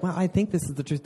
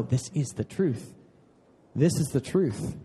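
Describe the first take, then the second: First: Tentative. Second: Solid conviction. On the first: Preacher imitating someone unsure of the truth, tentative. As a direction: say it as a mild, unsure hedge. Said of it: "That's not like". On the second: Preacher answering the doubter about the truth, firmly convinced. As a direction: state it firmly without raising the voice. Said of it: "that's solid in you". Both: Acted.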